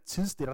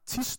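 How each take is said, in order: First: The word is said with a d sound. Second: The word is said without a d sound. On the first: This pronunciation comes from reading the spelling. "det må bare være en ren læseudtale" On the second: This is how the word is naturally spoken in speech. "min manglende udtale af det her med D i tis nok"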